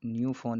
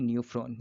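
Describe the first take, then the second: First: न्यूफॉन with no r after the f; mistaken pronunciation. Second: न्यूफ्रॉन with r after the f; corrected pronunciation. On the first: Teacher shows students the mistaken name, r left out. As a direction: say न्यूफॉन, dropping the r. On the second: Teacher corrects the name for students, r sounded. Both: Shown as a demonstration. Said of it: "न्यूफॉन नहीं".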